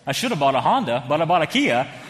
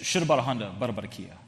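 First: It is spoken clearly in a normal voice. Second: It is mumbled quietly, like speaking in tongues.

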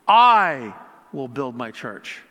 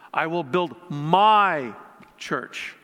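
First: The word 'I' is stressed. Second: The word 'my' is stressed.

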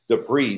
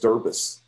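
First: The word is said in its usual form. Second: The word is said with sounds out of order. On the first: The speaker calls it right. "stop myself in my mind and go debris" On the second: The speaker calls it wrong. "I read the word debris as derbis"

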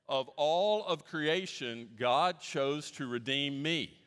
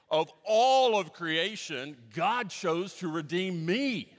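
First: It is said calmly, at normal volume. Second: It is said bigger, with more excitement.

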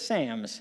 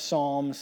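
First: It is said in a Scottish accent. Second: It is said in the speaker's ordinary accent.

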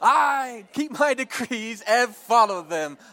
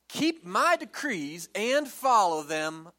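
First: It is said with passion and energy. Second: It is said in a plain, even way.

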